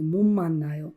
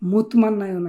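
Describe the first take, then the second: First: The first word ends in an m sound. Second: The first word ends in a t sound. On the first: The speaker calls it right. "উচ্চারণটা হবে মুম্মান্নায়ো" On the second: The speaker calls it wrong. "মুতমান্নায়ো না কিন্তু"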